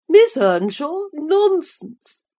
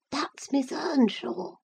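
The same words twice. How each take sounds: First: High, loud astonished cry; shocked cry. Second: High, breathy hushed whisper. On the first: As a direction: cry out in disbelief. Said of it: "cried the dame". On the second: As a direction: whisper it to mother. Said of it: "he whispered to his mother". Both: A narrator's reading.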